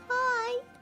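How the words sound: It is said in a dainty put-on voice.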